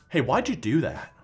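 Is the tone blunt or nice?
blunt. It is said in a blunt tone.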